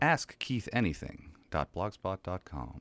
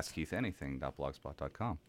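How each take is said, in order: First: It is said slowly and carefully. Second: It is said at normal speed.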